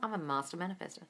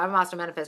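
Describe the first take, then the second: First: It sounds natural, sincere and convinced. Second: It sounds flat and mechanically recited. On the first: The speaker believes it is true. The speaker calls it right. "It's like you're telling a friend" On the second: The words are just being read off notes. The speaker calls it wrong. "I don't mean it like this. Looking at my affirmations on my notes"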